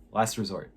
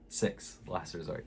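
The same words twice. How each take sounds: First: Said in the usual way. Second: "Six, Last Resort" whispered under breath; whispered repeat. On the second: Shown as a demonstration.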